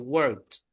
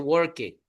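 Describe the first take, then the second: First: The ending is said as a short 't' sound. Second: The ending is said as a separate 'ed' syllable. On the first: The speaker calls it right. "como si fuera una T" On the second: The speaker calls it wrong. "No se dice worked"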